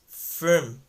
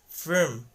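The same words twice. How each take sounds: First: The vowel is reduced to a short uh. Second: The vowel is reduced to a short uh.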